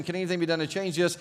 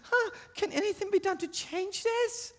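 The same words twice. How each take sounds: First: Said in the usual way. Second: Put-on tiny, very high-pitched child's voice; squeaky falsetto small-girl question; little girl voice. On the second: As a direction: ask it as a timid-sounding little girl. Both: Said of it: "in your little girl voice".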